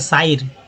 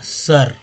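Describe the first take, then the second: First: The vowel sounds like 'ai' as in eye. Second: The vowel sounds like a short 'uh'. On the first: The speaker calls it wrong. "कुछ लोग करते साइर, साइर, गलत उच्चारण हो जाता" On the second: The speaker calls it right. "आपको लगेगा कि सर उच्चारण होता है"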